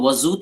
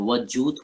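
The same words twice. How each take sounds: First: The middle consonant is a buzzing z sound. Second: The middle consonant is a plain j sound. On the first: The speaker calls it wrong. "वजूद नहीं होता है" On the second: The speaker calls it right. "वजूद होता है"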